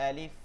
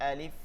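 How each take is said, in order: The two takes are said the same way.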